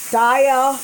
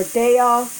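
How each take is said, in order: First: Daiya said DYE-uh, with a long I. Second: Daiya said DAY-uh, with a long A. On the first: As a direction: pronounce Daiya to start like "die". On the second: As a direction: pronounce Daiya to start like "day". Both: Real, not acted. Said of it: "I don't know how to say it".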